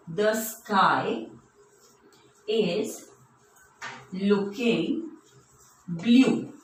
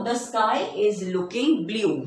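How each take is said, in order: First: Slow, with long pauses between words; word-by-word dictation. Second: Said in the usual way. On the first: Shown as a demonstration. Teacher writing an example for children, slow word-by-word dictation. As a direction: spell out the sentence one word at a time.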